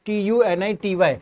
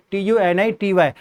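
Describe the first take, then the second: No difference in how they are said.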